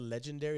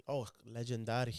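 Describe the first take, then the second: First: Said in the usual way. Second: Lower-pitched Hispanic pronunciation, legendary as "lejendádi"; Hispanic accent. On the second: Shown as a demonstration. Showing co-hosts the album title, in a Hispanic accent. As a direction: say it with a Spanish accent. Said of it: "in the Hispanic acc-, accent".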